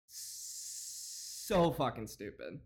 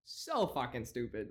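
First: Slow drawl. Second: Said in the usual way. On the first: Real, not acted.

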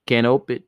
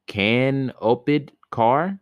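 First: Canoped said kan-OH-ped, three syllables; Canoped stumbled out like kan-ope-d; guessed pronunciation. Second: Said in the usual way. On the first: Shown as a demonstration. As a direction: read Canoped as kan-ohped with a long o. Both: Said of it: "I don't know what that is".

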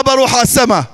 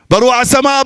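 First: بروح hit first and hardest, falling after; بروح stressed, a firm falling line. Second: السماء lifted and leaned on, the rest lighter; السماء as the peak of the phrase; stress on السماء. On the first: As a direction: punch بروح, let السماء drop. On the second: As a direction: land the weight on السماء. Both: Shown as a demonstration. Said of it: "أعيد لكم نفس الجمل".

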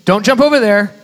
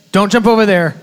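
Both takes have the same delivery.

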